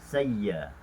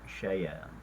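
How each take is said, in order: First: The 'y' sound is doubled and held. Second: The 'y' sound is single and short. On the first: "Hamzah di uh, ibdalkan kepada ia" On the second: "transferkan kepada ya, jadi baca dengan saya"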